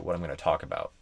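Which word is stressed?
talk. The word talk is longer and stressed.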